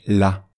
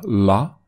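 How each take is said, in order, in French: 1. Le l sonne léger, clair et simple. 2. Le l sonne lourd, sombre et emphatique. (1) "sinon c'est la" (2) "Si on met un accent, une exagération, une emphase, on va dire la"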